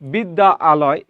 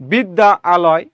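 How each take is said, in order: Both takes have the same delivery.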